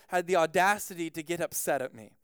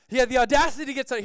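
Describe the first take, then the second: First: Said in the usual way. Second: Fast, raised, louder outrage; comic indignant outburst, higher and louder; mock indignation. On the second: Real, not acted. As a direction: repeat it faster, as if scandalised.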